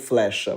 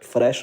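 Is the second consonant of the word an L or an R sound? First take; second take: L; R. First: The word begins with an fl sound. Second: The word begins with an fr sound. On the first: This is where European Portuguese stopped the change. "vamos parar aqui no flecha" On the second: This is the form Brazilian Portuguese kept changing to. "Frecha não dá"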